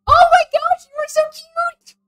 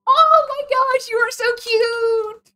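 First: High, loud gushing squeal; excited squeal. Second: High, drawn-out slow adoring coo; slow gushing coo. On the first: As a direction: squeal at something adorable. Gushing over character, said twice. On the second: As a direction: stretch every word, melting over it. Repeats gush, drawn out. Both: Real, not acted.

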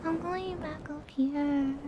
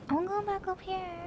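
First: Slow, lifted repeat of the phrase; higher voice, slower. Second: Pushed higher, lighter voice. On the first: Streamer trying again to hold the high voice. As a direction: still raised and drawn out. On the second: Streamer forcing her voice back up high. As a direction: lift the voice back up. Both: Shown as a demonstration.

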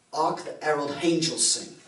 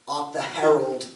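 First: Mock Cockney carol line, "Herald" said with a sounded H; lightly imitated Cockney that adds an H to "Herald"; mock Cockney accent. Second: Slow mock Cockney, "Herald" said with a sounded H; imitating the theatre Cockney that puts an H on "Herald"; mock Cockney accent. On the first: Grandmother's theatre crowd singing the carol in mock Cockney. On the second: Grandmother's theatre crowd singing carols in mock Cockney. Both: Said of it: "That's Cockney".

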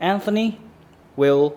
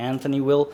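First: "Anthony" jumps much higher and louder, "will" slow and loud; a high, loud "Anthony" with a stretched "will"; Anthony stressed. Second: Said in the usual way. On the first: Shown as a demonstration. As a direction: punch "Anthony" high, then drag out "will". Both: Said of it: "จริงๆแล้วเขาพูดแบบ conversation".

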